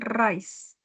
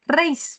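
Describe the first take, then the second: First: The vowel sounds like 'eye'. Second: The vowel sounds like 'ay' in 'day'. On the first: The speaker calls it wrong. "bukan rice" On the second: The speaker calls it right. "raise, bukan rice"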